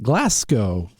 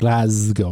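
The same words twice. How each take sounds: First: The middle consonant is an S sound. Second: The middle consonant is a Z sound. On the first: The speaker calls it wrong. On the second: The speaker calls it right. "it's a z sound"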